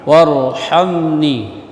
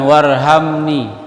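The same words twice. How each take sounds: First: Warhamni with a tight, airy pharyngeal h; throaty ha. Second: Loosen the h in warhamni; wrong plain h. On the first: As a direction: push the h of warhamni from mid-throat. (warhamni dengan ha dari tenggorokan) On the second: (warhamni dengan h biasa) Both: Shown as a demonstration. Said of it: "Jangan warhamni".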